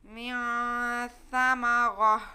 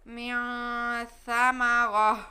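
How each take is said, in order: First: The last word ends with a stopped h sound. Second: The same.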